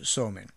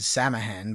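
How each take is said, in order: First: It is said with 'sow' and 'in' sounds. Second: It is said with 'sam' and 'hain' sounds. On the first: The speaker calls it right. "but it's Somain" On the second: The speaker calls it wrong. "it looks like you would pronounce it Samhain"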